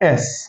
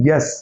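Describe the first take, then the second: First: The letter name starts straight with the vowel. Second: The letter name starts with a 'y' sound. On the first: The speaker calls it right. "तो ये है क्या?" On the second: The speaker calls it wrong. "बच्चे क्या पढ़ते हैं?"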